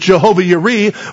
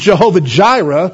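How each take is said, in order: First: The second word begins with a Y sound. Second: The second word begins with a J sound. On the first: The speaker calls it right. "the real pronunciation is Jehovah Yireh" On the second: The speaker calls it wrong. "one of God's Jehovah names is Jehovah Jireh"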